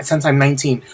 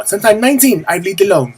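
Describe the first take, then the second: First: Said in the usual way. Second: Badly imitated pop diva, pitched up. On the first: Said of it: "I feel like [name] now". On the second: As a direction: do a hammy, higher-voiced singer impression. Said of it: "that's my horrible [name] impression".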